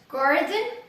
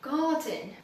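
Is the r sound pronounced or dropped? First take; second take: pronounced; dropped. First: The r sound is clearly pronounced. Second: The r sound is dropped.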